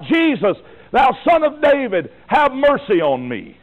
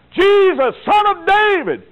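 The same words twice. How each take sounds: First: A blind man calling out, raised and pleading; retold cry for mercy. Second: Much higher, louder, slower cry; desperate cry, even louder. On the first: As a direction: call out to Jesus in the crowd. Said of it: "begins to cry out". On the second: Retold or imitated. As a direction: shout it over the crowd trying to shush you. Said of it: "He cried out the more".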